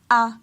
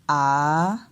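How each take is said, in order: First: The pitch stays level at mid height. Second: The pitch dips and then rises. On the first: "ce ton moyen-là" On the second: "on descend et après on monte"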